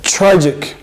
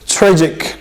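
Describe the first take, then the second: Both takes have the same delivery.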